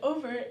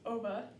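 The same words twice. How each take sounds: First: The final r sound is pronounced. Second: The final r sound is dropped.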